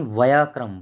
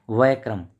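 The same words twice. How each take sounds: First: वयक्रम said loudly as "va-ya-kram", full middle "ya"; corrected form. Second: वयक्रम said as "vai-kram", first vowels run together; wrong form. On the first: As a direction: sound out every syllable of वयक्रम, "va-ya-kram". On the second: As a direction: say वयक्रम short, as two beats "vai-kram". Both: Shown as a demonstration. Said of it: "वयक्रम नहीं, वयक्रम".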